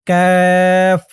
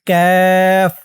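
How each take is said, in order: Both takes have the same delivery.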